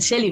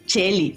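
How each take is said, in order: First: The name begins with a soft sh sound. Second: The name begins with a hard ch sound. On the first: The speaker calls it right. "debería ser sh" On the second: The speaker calls it wrong. "sino como C H"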